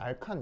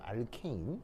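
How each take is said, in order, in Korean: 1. 두 번째 음절에는 'ah' 모음이 있으며, 'kahn'입니다. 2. 두 번째 음절에는 'ay' 모음이 있으며, 'kane'입니다. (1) "일본식으로는 알칸 이렇게 읽는데" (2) "여기 발음 기호는 A입니다. 알케인"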